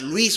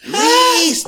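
First: Said in the usual way. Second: Loud high yell of Luis; yelling a name. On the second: Retold or imitated. Retelling the kidnapping, he yells for his brother. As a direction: shout Luis at the top of the voice. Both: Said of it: "empiezo a gritar".

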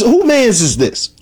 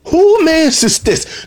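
First: "Who mans is this?" asked high and slow in disbelief; incredulous. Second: "Who mans is this?" pushed much higher and slower on "Who"; more incredulous. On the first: Reviewer wondering who raised Darius, slow incredulous question. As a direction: drag out the question like you can't believe it. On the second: Reviewer repeating his question about Darius, higher and slower. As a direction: stretch "Who" up high in stunned disbelief. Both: Retold or imitated. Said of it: "I'm like, I'm thinking".

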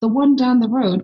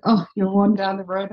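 First: Higher-pitched puzzled echo; mock-incredulous repeat of the phrase; retold bafflement. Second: Said in the usual way. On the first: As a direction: act out a taken-aback listener.

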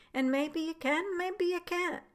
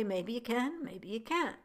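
First: Lifted pitch, rising on can; raised questioning quote. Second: Said in the usual way. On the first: Shown as a demonstration. Repeating his request to the doctors, pitched high. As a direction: toss the maybe lines up high, musing. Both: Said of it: "Again, I say".

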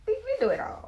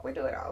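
First: High, loud exclaim; high excited burst; emphatic. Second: Said in the usual way. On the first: Real, not acted. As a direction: throw it out big and high.

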